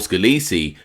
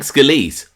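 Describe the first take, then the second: First: The name is said with an Italian pronunciation. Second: The name is said with an American pronunciation. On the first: "Italian pronunciation"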